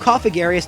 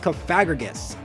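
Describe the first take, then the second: First: The name ends with the sounds 'garius'. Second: The name ends with the sounds 'grigus'. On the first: The speaker calls it wrong. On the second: The speaker calls it right.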